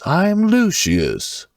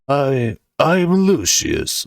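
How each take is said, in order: First: The voice is a little high and haughty. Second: The voice is plain, not high or haughty.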